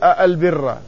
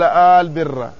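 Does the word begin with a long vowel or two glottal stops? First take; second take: two stops; long vowel. First: It opens with two clearly pronounced glottal stops. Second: It opens with a lengthened vowel, no second glottal stop. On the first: "أو أن الهمزة محققة فيقول" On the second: "أبدل همزة الاستفهام بمد فقال"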